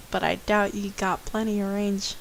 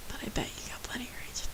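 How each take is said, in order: First: Said in the usual way. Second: Soft unvoiced whisper, a quick fix of the line; whispered correction. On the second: Real, not acted.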